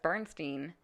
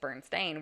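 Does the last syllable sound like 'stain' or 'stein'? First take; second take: stein; stain. First: The last syllable is said as 'stein'. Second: The last syllable is said as 'stain'. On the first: "B E R N S T E I N" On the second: "where it's A I N"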